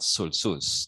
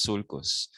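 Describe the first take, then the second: First: "sulcus" with an s sound, SUL-sus; "sulcus" mispronounced as sul-sus; soft C. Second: "sulcus" with a k sound, SUL-kus; "sulcus" pronounced sul-kus; hard C. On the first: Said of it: "No, it's not sulcus". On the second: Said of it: "No, it's sulcus". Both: Shown as a demonstration.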